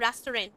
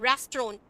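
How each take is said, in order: First: The word is said with its standard pronunciation. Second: The word is said with the common local pronunciation. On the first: The speaker calls it right. "रेस्टोरेंट की real pronunciation क्या होनी चाहिए?" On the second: The speaker calls it wrong. "हम रेस्टोरेंट कहते हैं"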